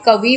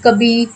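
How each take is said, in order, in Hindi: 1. अंतिम स्वर छोटा i है। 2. अंतिम स्वर लंबा ee है। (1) "शुद्ध शब्द क्या है" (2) "व की जगह बा का प्रयोग करते हैं और छोटी ई की जगह यहाँ पर बड़ी ई"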